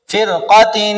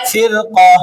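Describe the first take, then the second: First: फिरक़तिन with the final "-tin" fully sounded; फिरक़तिन as read without stopping; full tanween ending. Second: फिरक़ा closed on a breathy silent-vowel "h"; फिरक़ा in stopping form, tanween dropped; pausal ending. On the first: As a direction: recite फिरक़तिन slowly, ending on a humming "-in". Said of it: "दो जेर वाली तनवीन की मिसाल". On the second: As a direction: stop on फिरक़ा as "firqah", no "-tin". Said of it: "वाक़फ़न". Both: Shown as a demonstration.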